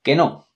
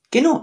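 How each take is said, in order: First: Said in the usual way. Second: High, exasperated que no; a squeaky, indignant que no; emphatic no. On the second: Real, not acted. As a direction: reject it outright, voice jumping up. Denial, much higher.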